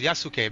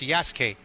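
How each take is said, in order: First: The u after the s is clearly sounded. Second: The u after the s is silent. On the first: The speaker calls it wrong. "I thought his name was Yasuke because it has a U" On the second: The speaker calls it right. "they don't pronounce the U. It's just Yasuke"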